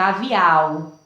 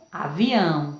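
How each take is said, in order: First: Avial with the ending through the mouth only, lower pitch; oral ending. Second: Avião with a nasal ão; nasal ending. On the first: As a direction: say avial with no nasal sound. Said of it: "Sai apenas pela boca". (avial sem som nasal) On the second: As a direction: say avião, ending through the nose. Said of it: "Agora, com o tio". (avião com som nasal) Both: Shown as a demonstration.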